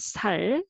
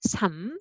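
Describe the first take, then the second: First: The word ends with an l sound. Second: The word ends with an m sound. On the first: The speaker calls it wrong. "not 살" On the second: The speaker calls it right. "So this is a 삶"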